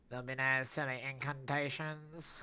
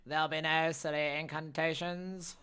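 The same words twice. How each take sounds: First: Louder stern warning, lightly voiced; a hint of a stern wizard forbidding spells; mildly acted stern character line; character voice attempt. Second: Louder, higher stern declaration; hammed-up loud stern character; second character take. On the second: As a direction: forbid incantations in a bigger voice. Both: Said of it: "Terrible, terrible, terrible, attempt there".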